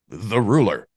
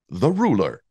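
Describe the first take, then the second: First: It is said in a plain, casual way. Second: It is said grandly, like a public speech.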